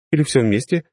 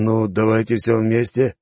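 First: High, bright rising offer; all of it, with a lift on или; cheerful offer. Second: Slow, unsure drawn-out answer; hesitant drawl. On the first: Hostess offers food. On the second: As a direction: stretch всё out hesitantly. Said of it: "нерешительно протянул". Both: Acted.

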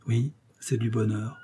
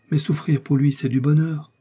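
First: Softer, absent-minded agreement; mechanical echo. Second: Higher, heartfelt declaration of love; fervent happiness. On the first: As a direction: repeat it with your thoughts elsewhere. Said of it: "Milady reprit machinalement". (machinalement, l'air absent) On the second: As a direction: say it with glowing conviction. Confie son bonheur d'aimer. (bonheur fervent) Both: A narrator's reading.

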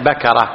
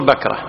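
First: Three open syllables in بكرة, BA-ka-ra; fatha on the kaf. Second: Two syllables in بكرة, BAK-ra; sukun on the kaf. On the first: Teacher correcting himself to the common form, بكرة as ba-ka-ra. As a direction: say بكرة as ba-ka-ra, an a after the k. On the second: Teacher giving the common form of a word, بكرة as bak-ra. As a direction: say بكرة as bak-ra, no vowel after the k. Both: Shown as a demonstration. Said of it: "المشهور بالفتح".

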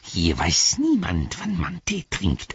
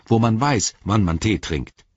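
First: Slow, rasping creature retort; Gollum hissing. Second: Natural voice, mildly affronted; indignant companion. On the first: Gollum retorts to Sam about teatime, hissing. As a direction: throw it back with a hiss. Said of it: "fauchte Gollum". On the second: Sam lectures Gollum on teatime, mildly indignant. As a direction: make a point of civilised habits. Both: A narrator's reading.

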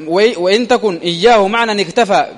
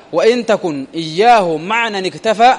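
The two takes are said the same way.

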